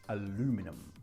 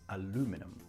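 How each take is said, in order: Both takes have the same delivery.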